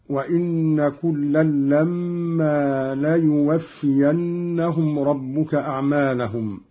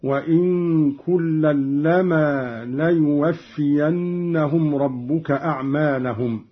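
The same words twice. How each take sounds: First: Said in the usual way. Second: لما with a light lam, lama; Qalun reading. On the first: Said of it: "هكذا". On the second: Shown as a demonstration. Teacher recites Qalun's لما for students. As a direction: say لما as lama, no doubled mim. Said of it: "لما بتخفيف اللام هكذا".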